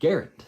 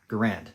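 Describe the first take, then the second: First: The name rhymes with errand. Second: The name does not rhyme with errand. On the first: This is the family's own form. The speaker calls it right. "that's what his family says is the correct pronunciation ... It rhymes with errand" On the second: This is the widely used form. The speaker calls it wrong. "not because it's right, but because it's so commonplace, widely accepted"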